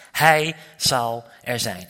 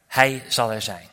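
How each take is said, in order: First: Very slow, each word weighed, "Hij" stressed; solemn name of God. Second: Said in the usual way. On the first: Shown as a demonstration. Preacher proclaiming God's name to the church, slow and solemn. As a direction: lay down "Hij zal er zijn" as a holy name. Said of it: "De naam van God is". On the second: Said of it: "Dus zeggen wij".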